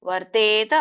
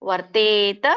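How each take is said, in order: No difference in how they are said.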